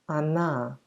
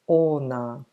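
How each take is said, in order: First: The first vowel sounds like 'a'. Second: The first vowel sounds like a full 'o'. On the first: The speaker calls it right. "So we actually say" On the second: The speaker calls it wrong. "and not"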